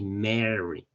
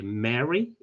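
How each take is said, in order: First: Second "Mary" with a drawn-out first vowel, falling; "Mary" as the contrasting word, settling downward; contrasted pronunciation. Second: First "Mary" of two, ending on a rise; "Mary" held up for comparison; contrasted pronunciation. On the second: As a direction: model "Mary" clearly, lifting the end. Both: Shown as a demonstration. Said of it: "miren la pronunciación de Mary y Mary".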